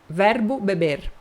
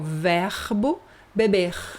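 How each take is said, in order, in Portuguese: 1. O R final é o R de São Paulo. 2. O R final é o R carioca de estilo francês. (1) "eu sou de São Paulo, eu falo R" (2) "importado da França... o pessoal do Rio de Janeiro fala assim"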